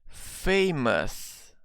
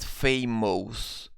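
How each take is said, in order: First: The ending is a short 'us' sound. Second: The ending is an 'ohs' sound. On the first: The speaker calls it right. "the sound here is us" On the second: The speaker calls it wrong. "It's not famous. We don't have this O's sound"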